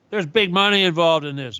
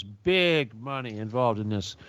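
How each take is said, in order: First: Said in the usual way. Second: Quieter, slower repeat. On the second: Shown as a demonstration.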